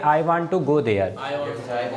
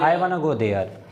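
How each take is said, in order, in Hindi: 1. 'want to' दो पूरे शब्दों की तरह बोला जाता है। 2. 'want to' को एक ही शब्द में छोटा कर दिया जाता है।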